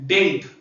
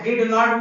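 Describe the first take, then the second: First: It is contracted into one short syllable. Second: It is said as two separate words. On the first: "short में बोला जाता है डिंट" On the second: "डिड नॉट भी बोल सकते हैं आप"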